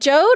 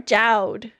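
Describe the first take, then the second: First: The vowel is not the one in 'loud'. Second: The vowel is the one in 'loud'.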